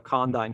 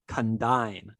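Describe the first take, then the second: First: The word is said with an American pronunciation. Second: The word is said with a British pronunciation. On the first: "when you say it with a American uh, inflection" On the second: "the correct pronunciation of that word in U K English"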